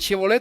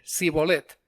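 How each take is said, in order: First: The word begins with an sh sound. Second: The word begins with an s sound. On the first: The speaker belongs to the Gilead group. The speaker calls it right. "los de Manasés decían Shibolet" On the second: The speaker belongs to the Ephraim group. The speaker calls it wrong. "los otros hacían con S"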